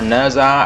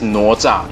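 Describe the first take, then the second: First: The name is said with simplified English-style sounds. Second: The name is said with its original Chinese sounds. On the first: "some people pronounce it Neza" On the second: "in our pronunciation"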